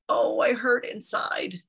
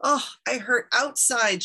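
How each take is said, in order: First: Slow, drawn-out mild wail; lightly acted lament; crying in pain. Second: Higher, slow storybook wail; crying in pain. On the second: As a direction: lament it slowly, pitch raised. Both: A narrator's reading. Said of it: "she cried".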